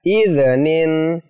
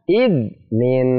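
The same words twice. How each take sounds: First: The middle consonant is bounced with an echo. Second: The middle consonant is pressed and held. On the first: The speaker calls it wrong. "Tidak boleh dibaca idnin" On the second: The speaker calls it right.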